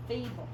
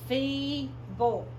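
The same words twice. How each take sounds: First: Said in the usual way. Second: FEEBLE drawn out as FEE, then BULL; syllable by syllable. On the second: Shown as a demonstration. Teacher shows a two-syllable word, FEEBLE as FEE-BULL. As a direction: sound out FEEBLE in two separate beats. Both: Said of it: "only a two-syllable word".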